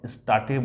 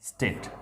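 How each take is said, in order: First: The vowel is 'ah' with a final 'eh'. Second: The vowel is 'ay' with no final vowel. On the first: The speaker calls it wrong. "आप स्टाटे बोलेंगे। लेकिन वो नहीं करना है" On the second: The speaker calls it right. "उसके बाद एट"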